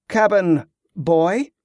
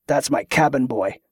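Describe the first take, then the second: First: Put-on "Cabin boy?" drawn out slowly with a rising question; slow, pointed disbelief on "Cabin", lifting at the end; incredulous echo. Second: Said in the usual way. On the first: Echoes the phrase incredulously.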